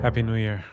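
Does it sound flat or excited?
flat. It is said flatly, without much happiness.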